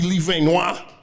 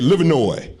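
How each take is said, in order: First: The name has a French pronunciation. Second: The name has an Americanized pronunciation.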